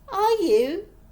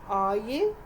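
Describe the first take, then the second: First: It sounds high, squeaky and over-excited. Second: It sounds calmer, lower and more casual.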